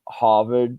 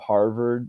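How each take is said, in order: First: It has a soft 'ah' and no 'r'. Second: It has a plain American 'r' sound.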